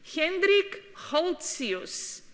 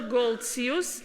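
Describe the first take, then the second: First: The name is pronounced the non-English way. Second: The name is pronounced the English way.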